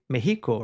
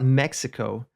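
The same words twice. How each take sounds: First: Mexico is said with a Spanish pronunciation. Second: Mexico is said with an English pronunciation.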